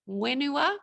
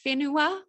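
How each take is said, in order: First: The word begins with a plain w sound. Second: The word begins with a breathy wh sound. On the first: This is the form used in other regions' dialects. "they would say wenua" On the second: This is the form used in the speaker's northern dialect. "instead of saying whenua"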